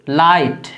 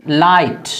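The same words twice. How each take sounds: Both takes have the same delivery.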